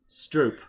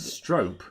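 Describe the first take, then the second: First: The vowel is an OO as in soup. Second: The vowel is a long O as in soap. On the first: "Double O like soup" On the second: "It's pronounced like soap"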